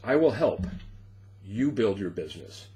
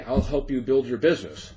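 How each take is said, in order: First: It is said with a small pause inside. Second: It is said smoothly without any pause. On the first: "Same words, little pause there" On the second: "Here's what somebody said"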